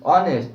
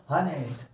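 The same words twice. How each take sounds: First: ऑनेस्ट punched loud, H silent; loud "on-est" for ऑनेस्ट, no H; correct honest. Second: हॉनेस्ट with an audible H; mispronounced honest. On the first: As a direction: hit ऑनेस्ट hard, opening on the vowel. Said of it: "क्या पढ़ते हैं?". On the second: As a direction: say हॉनेस्ट as "ha-nest", as a learner misreads it. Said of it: "क्या पढ़ेंगे?". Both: Shown as a demonstration.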